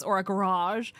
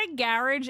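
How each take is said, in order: First: "garage" stressed on the second syllable, guh-RAHZH; garage, alternative pronunciation. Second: "garage" stressed on the first syllable, GARR-ij; garage, first pronunciation. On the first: Streamer offering chat the other way, "garage" as guh-RAHZH. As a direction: say "garage" with a long final AHZH. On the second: Streamer showing chat one way to say it, "garage" as GARR-ij. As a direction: say "garage" to rhyme with carriage. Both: Shown as a demonstration. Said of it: "we pronounce everything kind of funny".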